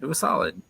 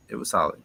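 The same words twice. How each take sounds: First: It was solid, with "was" jumped up high; high emphatic. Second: Said in the usual way. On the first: Real, not acted. A co-host rating the match, It was solid with a high emphatic "was".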